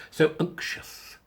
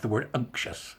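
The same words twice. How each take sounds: First: "unctuous" drawn out very slow and breathy; "unctuous" half-whispered, slow and relishing; savoured word. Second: Said in the usual way. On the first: Shown as a demonstration. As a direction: linger over "unctuous" as if tasting it. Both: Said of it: "isn't that a word we don't use enough".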